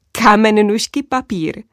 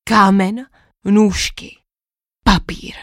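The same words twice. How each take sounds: First: A hint of you can't be serious; incredulous. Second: Solemn knight, each word weighed; hint of a grand pronouncement; dramatic monologue. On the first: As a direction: princess repeating the knight's words in mild disbelief. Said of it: "zeptala jsem se nevěřícně". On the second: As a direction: knight announcing the legendary game, lightly dramatic. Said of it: "svůj dramatický monolog".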